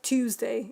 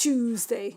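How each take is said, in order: First: It is said with a standard clear 't' sound. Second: It is said the Cockney way, like 'Chewsday'. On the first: "It's not Tuesday" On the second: "They say things like Tuesday... It's Tuesday"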